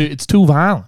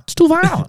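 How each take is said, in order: First: Said in the usual way. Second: "too violent" jumped way up high; piping parent voice mocking "too"; squeaky high mock dad. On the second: Mimicking the strict dad, squeaky and high.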